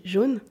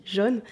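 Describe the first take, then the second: First: Jaune with a closed o, like jône; Parisian jaune. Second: Jaune with an open o, like jonne, southern French accent. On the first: Teacher showing the Paris jaune she learned, closed o. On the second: Southern-born teacher contrasting her natural jaune, southern French open o. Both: Shown as a demonstration. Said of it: "mon accent du Sud".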